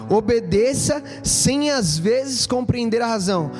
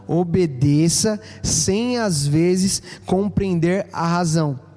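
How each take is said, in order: First: The sentence is spoken at a normal pace. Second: The sentence is spoken more slowly.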